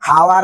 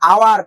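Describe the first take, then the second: First: The word begins with an h sound. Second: The word begins with a vowel sound. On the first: The speaker calls it wrong. "হাওয়ার না" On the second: The speaker calls it right. "এটা আওয়ার"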